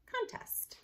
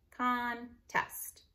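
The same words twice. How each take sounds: First: Said in the usual way. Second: "Contest" in two parts, con, then test; split by syllable. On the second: Shown as a demonstration. Teacher showing spelling by syllable, split by syllable. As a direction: leave a gap inside "Contest". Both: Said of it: "you wanna spell by syllable".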